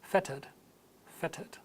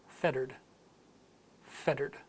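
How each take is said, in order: First: Fettered with a crisp T and no R; British clear T. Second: Fettered with a D-like T and sounded R; American flap T. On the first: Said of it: "and in British". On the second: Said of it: "with an American accent". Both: Shown as a demonstration.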